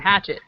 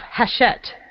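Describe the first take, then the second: First: The name is said like the word 'hatchet'. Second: The name is not said like 'hatchet'. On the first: The speaker calls it wrong. "I was just calling them Hatchet, like you hit things with" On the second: The speaker calls it right. "that's how you pronounce them"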